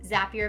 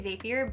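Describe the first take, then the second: First: The name rhymes with happier. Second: The name does not rhyme with happier. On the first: The speaker calls it right. "Zapier makes you happier" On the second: The speaker calls it wrong. "I always want to say Zapier"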